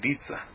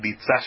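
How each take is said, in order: First: The stress is on the first syllable. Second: The stress is on the last syllable. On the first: The speaker calls it wrong. "chamam de Ditsá" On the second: The speaker calls it right. "todas elas deveriam ser oxítonas"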